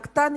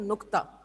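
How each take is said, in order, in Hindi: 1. पहला स्वर 'a' की आवाज़ है। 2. पहला स्वर 'u' की आवाज़ है। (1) "नक्ता नहीं होता"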